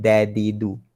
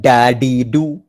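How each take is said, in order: First: "dadidu" with d at base of front teeth; light, correctly placed d in "dadidu"; correct articulation. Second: "dadidu" loud and slow, d misplaced; heavy, mistaken d in "dadidu"; wrong articulation. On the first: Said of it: "Pangkal lagi depan". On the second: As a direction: show the faulty "dadidu" forcefully. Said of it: "Bukan dadidu". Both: Shown as a demonstration.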